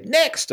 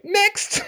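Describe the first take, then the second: First: Casual next. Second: A breezy high "Next." while leaning on the bat; cocky next. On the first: Shown as a demonstration. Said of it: "you can say". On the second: Retold or imitated. Batter leaning on bat after a big hit, breezy cocky call. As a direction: toss off "Next." like it's nothing, much higher. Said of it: "and I say".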